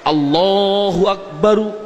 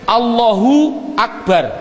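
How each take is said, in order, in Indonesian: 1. Kata terakhir berakhir dengan vokal. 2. Kata terakhir berakhir dengan konsonan mati. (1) "sah, karena nakunya seperti itu" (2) "orang bilang akbar disukun"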